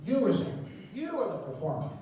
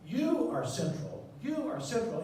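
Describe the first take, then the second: First: Loud emphasis. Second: Slow, deliberate "You are central"; "You" stressed, slow and weighty; slow emphasis. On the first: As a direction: punch it out to the room. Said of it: "more loudly and more slowly". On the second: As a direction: lay each word down slowly. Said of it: "speak more loudly and more slowly". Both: Shown as a demonstration.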